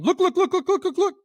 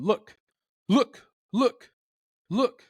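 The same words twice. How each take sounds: First: Much higher, louder look look look in a rapid run; high alarm putt. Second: Voicing a clucking turkey, higher and louder; calm clucking turkey. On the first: Retold or imitated. Hunter imitating a turkey's alarm putt, high and loud. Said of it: "a lot of clucks in a high pitch in a row". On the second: Hunter voicing the turkey's cluck for a listener, lightly pitched up. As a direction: call look look look like a relaxed cluck. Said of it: "a turkey's going".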